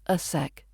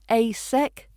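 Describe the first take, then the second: First: The word 'a' is a reduced schwa. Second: The word 'a' has a full vowel. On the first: The speaker calls it right. "we're hearing that schwa again" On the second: The speaker calls it wrong. "Not a sec"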